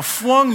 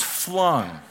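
First: "flung" said as "fwung"; childish mispronunciation. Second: Said in the usual way. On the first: Retold or imitated. Explaining grandson's word, "flung" said babyishly as "fwung". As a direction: turn the L of "flung" into a W. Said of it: "Now, flung means flung". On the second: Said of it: "flung means flung".

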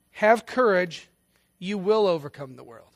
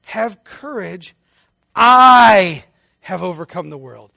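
First: Said in the usual way. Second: Slow, with "I have overcome the world" punched much louder; emphatic stress on I. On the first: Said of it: "does not say". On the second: Shown as a demonstration. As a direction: hit "I" hard, slowly, as a victory claim. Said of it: "The Greek sentence structure is emphatic".

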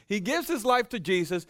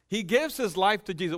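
First: His lifted high and held, higher overall; stress on his. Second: Gives lifted and leaned on, rest falling; stress on gives. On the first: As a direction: lean on his. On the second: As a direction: hit gives. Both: Shown as a demonstration. Repeated with new stress.

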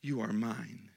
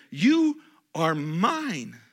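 First: Repeated much softer and lower; soft echo. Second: Slow, loud, lingering; emphatic quote. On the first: Pastor repeating God's words, quiet and tender. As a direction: drop to a hushed repeat. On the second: Pastor voicing God's words, slow and loud. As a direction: say it slowly with weight. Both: Shown as a demonstration. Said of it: "he goes on to say".

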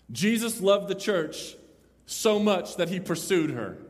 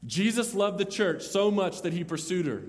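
First: Slow emphasis. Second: Said in the usual way. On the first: Shown as a demonstration.

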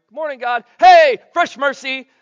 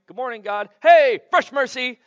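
First: High, loud, stretched hello to God; louder excited greeting. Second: High, excited morning hello; cheerful wake-up greeting. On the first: Preacher repeating the morning greeting to God, louder and giddier. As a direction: throw the morning hello up to the rafters. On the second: Preacher acting out greeting God at dawn, bright and excited. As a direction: greet the new day like a kid. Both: Pretend.

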